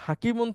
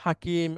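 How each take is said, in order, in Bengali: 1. শব্দটি শেষে -un ধ্বনি দিয়ে শেষ হয়। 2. শব্দটি শেষে -un ধ্বনি ছাড়া শেষ হয়। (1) "হাকিমুন থাকলে" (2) "হাকিম এভাবে বলেই থামতে হয়"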